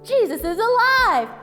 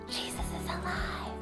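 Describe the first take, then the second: First: It is said in a full voice. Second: It is said in a soft whisper.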